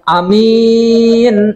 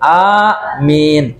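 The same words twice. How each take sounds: First: The first vowel is short, the second long. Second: Both vowels are drawn out long. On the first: Honest and trustworthy. "yang A-nya pe pendek" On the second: O God, grant the prayer. "yang dipanjang dibaca panjang begitu"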